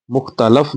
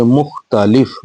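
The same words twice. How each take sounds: First: मुख्तलफ with a flat short a in the last syllable; wrong pronunciation. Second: मुख्तलिफ with a clear i before the final f; correct pronunciation. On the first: Teacher showing children the mistake, मुख्तलफ said wrong. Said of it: "मुख्तलफ नहीं बल्कि". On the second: Teacher correcting children, मुख्तलिफ said right. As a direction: say मुख्तलिफ carefully with the i. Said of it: "नहीं बल्कि मुख्तलिफ". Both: Shown as a demonstration.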